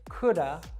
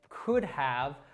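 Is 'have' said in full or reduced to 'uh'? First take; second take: reduced; full. First: The word 'have' is reduced to 'uh'. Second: The word 'have' is said in full. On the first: "we'll reduce that simply to the schwa sound" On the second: "instead of us saying could have"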